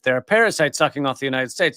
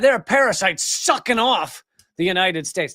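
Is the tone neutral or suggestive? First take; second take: neutral; suggestive. First: It is said in a plain, neutral tone. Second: It is said in a suggestive, dirty tone.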